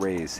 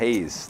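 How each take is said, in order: First: The word starts with an R sound. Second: The word starts with an H sound. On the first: "not Rays" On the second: "Hayes says the dealer"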